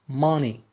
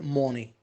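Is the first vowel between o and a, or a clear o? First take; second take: between; clear o. First: The first vowel sounds between o and a. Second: The first vowel sounds like a clear o. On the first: The speaker calls it right. "Between O and A" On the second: The speaker calls it wrong. "Don't say money"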